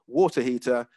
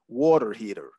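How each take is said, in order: First: It is said in a British accent. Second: It is said in an American accent.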